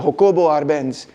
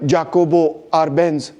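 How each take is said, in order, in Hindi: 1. नाम की शुरुआत एक नरम H की आवाज़ से होती है। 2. नाम की शुरुआत एक सख़्त J की आवाज़ से होती है।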